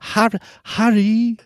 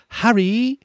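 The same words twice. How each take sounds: First: Much higher falsetto, slow and drawn out; a man squeaking out a girl's voice; Jim Dale as Hermione. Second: Put-on much higher falsetto girl voice, rising on the name; a man putting on a high young girl's voice; Jim Dale as Hermione. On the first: Retold or imitated. Host repeating the narrator's Hermione, slow high falsetto. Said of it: "That's how he says it". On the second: Mimicking the narrator voicing Hermione, high falsetto. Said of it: "It's like Jim Dale when he talks as Hermione".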